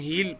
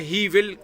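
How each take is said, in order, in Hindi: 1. यह एक संकुचित अक्षर के रूप में बोला जाता है। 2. यह दो पूरे शब्दों के रूप में बोला जाता है। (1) "हम हील पढ़ेंगे" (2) "ही विल की जगह"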